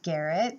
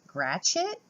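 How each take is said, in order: First: The name is said the speaker's own way. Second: The name is said the American way. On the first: The speaker calls it wrong. "that's how I would pronounce it" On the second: The speaker calls it right. "in the States they pronounce it"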